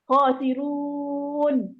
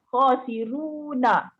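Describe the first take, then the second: First: The word ends on a consonant with no vowel. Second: The word ends with an added vowel sound. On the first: The reading stops at this word. "Tapi ketika dia wakaf" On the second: The reading continues into the next word. "Tapi ketika wasal saja"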